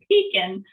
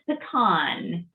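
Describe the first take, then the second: First: It is said in a British way. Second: It is said in an American way. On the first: The speaker calls it wrong. "when I heard them pronouncing it pecan, like, you've got to be kidding me" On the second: The speaker calls it right. "We have a lot of pecan pie here in Texas"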